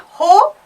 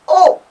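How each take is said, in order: First: The word begins with an audible h sound. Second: The word begins directly with the vowel sound. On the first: The speaker calls it wrong. "H is not pronounced. It's not ho" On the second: The speaker calls it right. "it's O"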